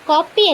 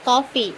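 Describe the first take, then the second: First: The middle consonant is a 'p' sound. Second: The middle consonant is an 'f' sound. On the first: The speaker calls it wrong. "കോപ്പി അല്ല" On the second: The speaker calls it right.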